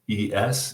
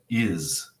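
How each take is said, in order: First: The ending is said with an 'ess' sound. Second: The ending is said with an 'iz' sound. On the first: The speaker calls it wrong. "It's never pronounced es" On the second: The speaker calls it right. "It's always pronounced is"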